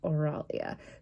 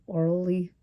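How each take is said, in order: First: The name ends with an 'ah' sound. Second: The name ends with an 'ee' sound. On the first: The speaker calls it wrong. "instead of an E at the end, I saw an A" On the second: The speaker calls it right. "that's how it's pronounced"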